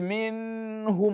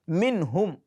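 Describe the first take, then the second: First: The n sound is drawn out and lingered on. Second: The n sound is said crisply without lingering. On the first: The speaker calls it wrong. "Don't say minhum" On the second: The speaker calls it right.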